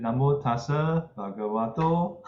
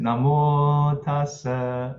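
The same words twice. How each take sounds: First: Namo tassa bhagavato sung lightly with a rise at the end; chanted, try namo tassa bhagavato with a rising tune; lighter intoned chant. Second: Higher, louder, slow sung namo tassa; intoned chant. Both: Shown as a demonstration. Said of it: "trying chant tones".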